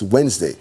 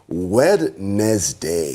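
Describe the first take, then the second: First: It is said in its usual short spoken form. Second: Every letter is sounded out, as it is spelled. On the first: The speaker calls it right. "it's not pronounced like that... No, it's Wednesday" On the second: The speaker calls it wrong. "for us to remember the words, the letters"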